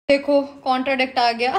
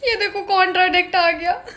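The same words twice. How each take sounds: First: Said in the usual way. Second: "ये देखो contradict आ गया" said through laughter, pitch higher; laughing. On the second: Real, not acted. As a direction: laugh out the line at the contradiction.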